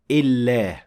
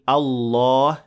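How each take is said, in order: First: The L sound is light and thin. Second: The L sound is heavy and full-mouthed. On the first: The speaker calls it wrong. "not illah" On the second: The speaker calls it right. "the lam in Allah is of course full mouth, so we say Allah"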